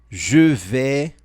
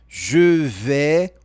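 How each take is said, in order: No difference in how they are said.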